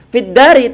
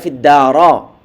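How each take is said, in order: First: The word ends with an 'i' vowel. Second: The word ends with an 'a' vowel. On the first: The speaker calls it right. "Fiddari tidak dibaca fiddara" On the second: The speaker calls it wrong. "tidak dibaca fiddara"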